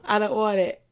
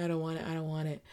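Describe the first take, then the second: First: Said in the usual way. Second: I don't want it said softly, trailing off; I don't want it, nearly muttered; faded refusal. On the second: Real, not acted. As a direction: let it die away. Repeated, fading.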